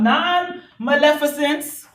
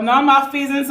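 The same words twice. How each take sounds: First: "non-maleficence" with a short "lef" and four syllables after "non"; first pronunciation attempt. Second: "non-malfeasance" shortened, with a long "fee"; alternative pronunciation. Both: Shown as a demonstration. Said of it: "I don't know how you pronounce it".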